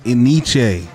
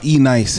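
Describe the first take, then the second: First: The name is not said as 'ee-nice'. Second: The name is said as 'ee-nice'. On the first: This is the speaker's own way of saying it. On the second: Some other people say it this way.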